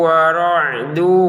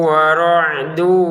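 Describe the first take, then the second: No difference in how they are said.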